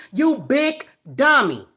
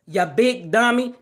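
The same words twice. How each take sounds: First: Said in the usual way. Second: A light Fred Sanford impression, barely changed; lightly imitating Fred Sanford scolding his son. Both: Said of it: "in my Fred Sanford voice".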